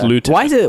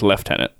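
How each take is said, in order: First: It is said the American way. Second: It is said the British way. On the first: "the American way of saying it is lieutenant" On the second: "the British way of saying it is lieutenant"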